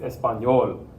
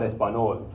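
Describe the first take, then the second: First: "español" with an ny glide, espa-NYOL; correct español. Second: "español" with a plain n, espa-NOL; no y glide in "español", just n; wrong español. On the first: Teacher correcting the wrong version for students, correct ny sound. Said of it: "It's español". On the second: Teacher repeating the error to reject it, plain-n mispronunciation. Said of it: "not español". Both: Shown as a demonstration.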